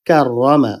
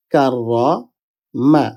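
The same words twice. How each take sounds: First: Said in the usual way. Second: Slow কাররা, pause, then মা; broken into syllables. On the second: Shown as a demonstration. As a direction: draw out কাররামা in separate parts. (কাররা... মা: ধীরে ভেঙে ভেঙে) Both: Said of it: "প্রথম হরফের সাথে এটা মিলিত হবে".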